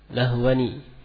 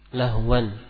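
First: The word ends with an added ni syllable. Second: The word ends in a bare n sound. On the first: "didatangkan dengan nun al-iwad, dibaca dengan lahwani" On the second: "lahwan itu adalah gambaran dari nun yang berakhiran sukun"

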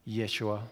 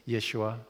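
Both takes have the same delivery.

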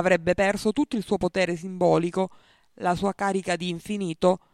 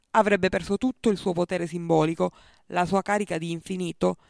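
The two takes are said the same way.

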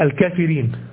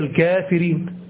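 First: The vowel after the k is short. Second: The vowel after the k is long. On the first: It follows the old written form without the alif. The speaker calls it wrong. "لو هو نطقها حسب النطق الإعلامي بتاع الإملاء بتاعه فينطقها" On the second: It is the proper reading with the alif. The speaker calls it right. "لكن هي الكافرين"

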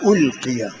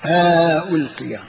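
First: Both glottal stops are pronounced fully. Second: A long vowel separates the two glottal stops. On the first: "بتحقيق الهمزتين" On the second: "وإدخال ألف بينهما"

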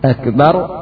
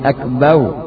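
First: The final r sound is clearly pronounced. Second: The final r sound is dropped. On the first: The speaker calls it right. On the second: The speaker calls it wrong.

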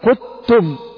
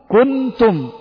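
First: The n is fully merged into the next sound. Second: The n is pronounced clearly and fully. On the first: "لو أنك قلتها بالإدغام ستقول قدتم" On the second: "لو أني قرأتها بالإظهار ستقول كنتم"

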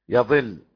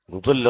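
First: The vowels are a then i. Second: The vowels are u then i. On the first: They go astray themselves. "بفتح الياء وكسر الضاد" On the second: They lead others astray. "من أضل"

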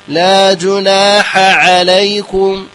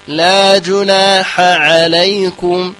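No difference in how they are said.

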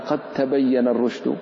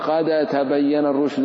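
First: The dal merges fully into the following sound. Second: The dal is pronounced clearly and separately. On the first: The speaker calls it right. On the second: The speaker calls it wrong.

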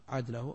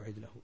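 First: The first vowel is an open a sound. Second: The first vowel is an i sound. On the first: "الفتح" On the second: "الكسر"

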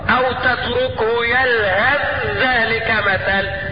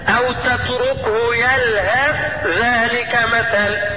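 First: The final 'th' sound merges into the next word. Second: The final 'th' sound is pronounced separately. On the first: "ويجوز الإدخال" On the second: "يجوز فيها عند حفظ الإظهار هكذا"

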